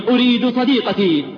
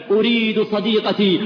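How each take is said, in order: First: Louder, higher, with أريد stressed; anguished cry, أريد hit hard; louder anguished plea. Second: Mournful plea. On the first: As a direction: repeat it as a louder, more desperate cry. Dying man's plea, louder. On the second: Dying man's plea. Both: Retold or imitated.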